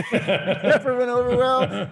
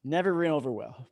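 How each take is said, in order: First: High, slow, laughing through it. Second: Said in the usual way. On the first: Shown as a demonstration. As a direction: laugh as you repeat it.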